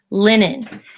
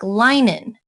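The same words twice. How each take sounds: First: The first vowel is short. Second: The first vowel is long. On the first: The speaker calls it right. "so we're going to use Rule nine" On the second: The speaker calls it wrong. "If we used Rule eight"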